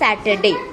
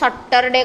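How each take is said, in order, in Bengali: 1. প্রথম স্বরধ্বনিটি একটি সামনের দিকের 'a' ধ্বনি। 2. প্রথম স্বরধ্বনিটি একটি গোলাকার 'o' ধ্বনি। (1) "ଇଂରାଜୀରେ ପ୍ରୋନାଉନ୍ସ କରନ୍ତି ସ୍ୟାଟରଡେ" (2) "ସମସ୍ତେ ଲୋକ ନର୍ମାଲି ତାକୁ ସଟରଡେ କହନ୍ତି"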